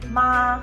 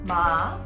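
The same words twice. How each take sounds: First: It is said with the first tone. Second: It is said with the third tone. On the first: It means mom. "if you say with tone number one" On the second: It means horse. "if you say it with tone number three"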